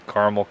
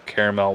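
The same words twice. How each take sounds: First: Caramel said as CAR-muhl; own pronunciation. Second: Caramel said as CARE-uh-mel; alternate pronunciation. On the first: Reviewer showing how he says it, caramel as CAR-muhl. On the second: Reviewer showing the other way, caramel as CARE-uh-mel. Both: Shown as a demonstration. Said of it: "I always say caramel".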